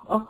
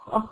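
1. صوت kh يخرج بحرية مع تدفق الهواء. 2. صوت kh يخرج بحرية مع تدفق الهواء.

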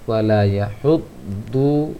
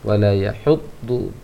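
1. Vokal 'du' terakhir dibaca panjang. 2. Vokal 'du' terakhir dibaca pendek.

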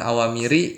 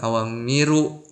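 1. Kata itu diakhiri vokal i. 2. Kata itu diakhiri vokal u. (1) "bukan awamiri" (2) "bukan awamiru"

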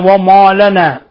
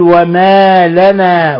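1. تُنطق الميم مفخّمة ثقيلة. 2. تُنطق الميم مرقّقة خفيفة. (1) "ولا تقل" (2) "وإنما قل"

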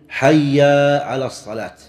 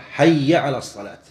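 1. حرف المد في الكلمة الأولى ممدود. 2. الكلمة الأولى تُقال قصيرة ومباشرة. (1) "لأن حيا ليس فيها مد طبيعي" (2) "بل يجب أن يقولها مباشرة"

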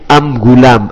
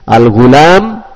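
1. Artikel itu dilafalkan dengan bunyi M. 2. Artikel itu dilafalkan dengan bunyi L.

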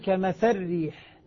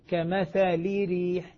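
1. اللام وحركتها تدغم في الراء. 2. اللام تحمل كسرة كاملة. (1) "إذا أدغمت أقول ... اللام ذهبت وذهبت حركتها" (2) "لو أني أنا نطقت بها كسرة كاملة سأقول"

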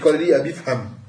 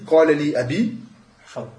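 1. Le dernier mot s'enchaîne sans arrêt. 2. Il y a un arrêt avant le dernier mot. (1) "si tu fais la liaison" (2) "si tu t'arrêtes"

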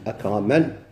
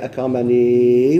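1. الكلمة تنتهي بدون الحرف الطويل الأخير. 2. الكلمة تنتهي بمقطع 'nee' طويل. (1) "ولكن لو وقف كيفاش يقول؟" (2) "في الوسط الذي ثبت"

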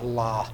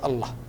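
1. يُمَدّ حرف المد في الوسط حركتين. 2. يُنطق حرف المد في الوسط قصيرًا كأنه فتحة. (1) "ها هو الله، هكذا النطق الصحيح" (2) "الناس الآن أحيانا ينطقون لفظ الجلالة يقول الله"

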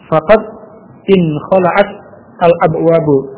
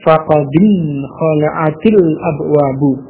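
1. Kata-kata diucapkan terpisah tanpa vokal penghubung. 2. Kata-kata disambung dengan vokal i penghubung.

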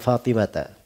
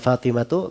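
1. Nama itu berakhir dengan vokal 'a'. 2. Nama itu berakhir dengan vokal 'u'. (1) "bisa dibaca ya Fatimata" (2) "bisa dibaca ya Fatimatu"

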